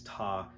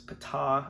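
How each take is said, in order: First: The word begins without any P sound. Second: The word begins with an audible P sound. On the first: "the P was silent" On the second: "you need to pronounce the P"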